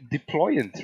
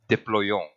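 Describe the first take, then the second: First: It is said with an English pronunciation. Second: It is said with a French pronunciation. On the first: The speaker calls it wrong. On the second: The speaker calls it right.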